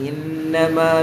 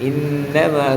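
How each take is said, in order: The two takes are said the same way.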